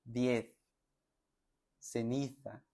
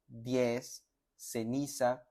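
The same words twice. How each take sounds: First: "Diez" and "Ceniza" with the z and c said as th, like in Spain; Castilian th sound in "Diez" and "Ceniza"; Spanish lisp. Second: "diez" and "ceniza" with a normal s, no lisp; seseo: plain s in "diez" and "ceniza"; plain s sound. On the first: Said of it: "como hablan los españoles". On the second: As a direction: say "diez" and "ceniza" with a Latin American s. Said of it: "Pero puedes decir como una S normal". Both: Shown as a demonstration.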